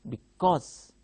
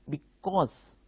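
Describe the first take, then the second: No difference in how they are said.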